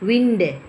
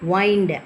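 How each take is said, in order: First: The vowel is a short i sound. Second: The vowel is a long eye sound. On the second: "வைண்டு அப்படி சொல்கிறோம்"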